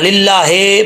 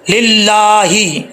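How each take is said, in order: First: The final vowel sounds like 'e'. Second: The final vowel sounds like 'i'. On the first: The speaker calls it wrong. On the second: The speaker calls it right.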